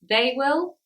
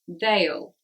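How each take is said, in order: First: Will is said as a separate full word. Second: Will is squeezed into one short syllable.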